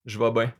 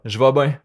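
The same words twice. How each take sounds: First: "vais bien" relaxed, close to "va ben"; "Je vais bien" said loosely, sliding toward "ben"; Québécois "vais bien", casual and reduced; casual Quebec vowels. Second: Said in the usual way. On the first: Shown as a demonstration. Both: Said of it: "on utilise ben au lieu de bien".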